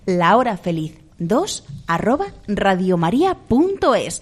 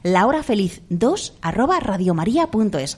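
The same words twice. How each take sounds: First: It is said more slowly. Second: It is said at a normal pace.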